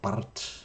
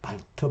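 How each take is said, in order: First: The R is rolled on the tongue. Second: The R is folded into a final L sound. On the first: The speaker calls it right. "혀에서 굴리, 굴리는 음, 음, 소리로 바르트" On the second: The speaker calls it wrong. "R을 어, 밑받침으로 넣어서 발트"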